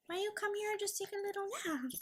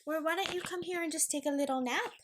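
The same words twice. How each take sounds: First: Higher, softer and quicker pet voice. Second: Said in the usual way. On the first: Real, not acted. Owner coaxing dog Luna to nap, higher soft baby talk. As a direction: sweet-talk the puppy into a nap.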